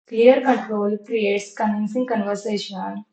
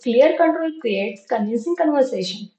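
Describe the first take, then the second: First: The sentence is spoken at moderate speed. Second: The sentence is spoken quickly. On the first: "and then little fast" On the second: "now last time, fast"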